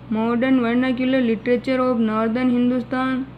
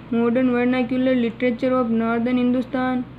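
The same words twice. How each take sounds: The two takes are said the same way.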